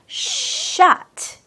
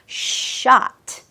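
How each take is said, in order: First: The vowel is said with rounded, pushed-out lips. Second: The vowel is open and unrounded, Korean-like. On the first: The speaker calls it right. "입술을 조금 내밀어 주시면서" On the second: The speaker calls it wrong. "shot 이렇게 말하기보다는"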